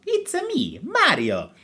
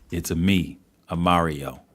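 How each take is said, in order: First: High-pitched cartoon plumber voice; Mario. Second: Low, understated take on the plumber catchphrase; Mario. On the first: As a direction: squeal it out like a game mascot introducing himself. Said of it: "Sonic the Hedgehog versus". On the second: Acted. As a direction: say the cartoon catchphrase in a lowered voice. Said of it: "That's not the voice".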